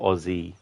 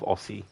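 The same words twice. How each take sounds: First: The middle consonant is a buzzing z sound. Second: The middle consonant is a hissing s sound. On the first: The speaker calls it right. "it's um actually pronounced as if you're saying Z" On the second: The speaker calls it wrong. "instead of"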